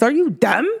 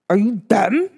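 First: It is said in a New York accent. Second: It is said in a plain, neutral voice.

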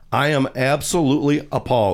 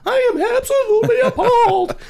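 First: It is read in his normal voice. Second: It is read in a put-on voice.

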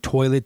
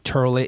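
First: The first vowel is an 'oy' sound. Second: The first vowel is an 'ur' sound. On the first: "instead of saying toilet" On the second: "they say turlet"

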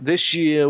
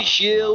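First: It is read in the speaker's usual accent. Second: It is read in a put-on Yorkshire accent.

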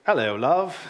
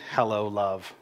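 First: It is said in a British accent. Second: It is said in the speaker's normal accent.

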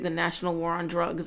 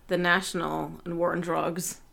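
First: The phrase is said fast, the 'and' swallowed. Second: The phrase is said at a normal pace. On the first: It sounds like a rally against drugs. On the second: Two bands are playing together.

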